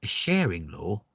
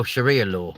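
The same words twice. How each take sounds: First: A sharing law? asked rising, puzzled; misheard as sharing law. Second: Oh, Sharia law with the realisation falling; Sharia said right. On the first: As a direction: repeat sharing as a baffled question. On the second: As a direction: catch on and say Sharia properly. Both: Real, not acted. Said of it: "Oh, Sharia law".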